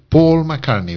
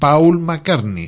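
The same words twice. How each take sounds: First: The vowel in Paul is a long O sound. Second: The vowel in Paul is a gliding 'ow' diphthong. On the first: The speaker calls it right. "En inglés la AU es O, una O larga" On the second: The speaker calls it wrong. "no es Paul McCartney"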